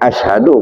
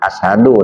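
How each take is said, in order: First: It is said with an 'sh' sound. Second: It is said with a plain 's' sound. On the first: The speaker calls it right. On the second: The speaker calls it wrong. "bukan sin besar"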